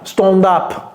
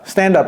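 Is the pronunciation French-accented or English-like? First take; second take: French-accented; English-like. First: It is said with a French-like pronunciation. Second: It is said with an English-like pronunciation. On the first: The speaker calls it wrong. "Ne dites pas stand up" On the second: The speaker calls it right. "Non, stand, stand up"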